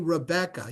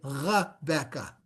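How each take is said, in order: First: The R is made at the front of the mouth. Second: The R is a guttural sound in the throat. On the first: The speaker calls it wrong. "So you wouldn't say Rebecca" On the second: The speaker calls it right. "You would say Rebecca. It's back here"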